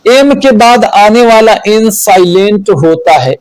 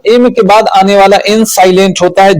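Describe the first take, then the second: First: Said in the usual way. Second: Fast run-through of the rule; quick recap for students; quicker repeat. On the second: Shown as a demonstration. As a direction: rattle the rule off again quickly.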